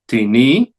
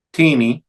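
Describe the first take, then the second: First: "Tini" as ti-NI, rising; stress on last syllable. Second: "tini" as TI-ni, TI higher; stress on first syllable. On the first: Teacher showing the accented ending, ti-NI stressed last. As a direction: push the weight onto NI in "Tini". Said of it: "en la última sílaba". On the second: Teacher reciting interrogative forms, TI-ni stressed up front. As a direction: hit the TI of "tini", let ni drop. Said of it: "la primera sílaba". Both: Shown as a demonstration.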